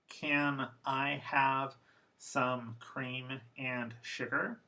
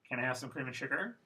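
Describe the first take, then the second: First: Every syllable is pronounced fully and clearly. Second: Weak words are reduced and run together. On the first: "First formal" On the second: "then defocused"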